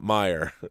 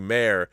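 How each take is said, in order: First: The first vowel sounds like the one in 'my'. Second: The first vowel sounds like the one in 'day'. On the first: The speaker calls it right. "and not Meyer" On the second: The speaker calls it wrong. "when he calls you Mayor and not"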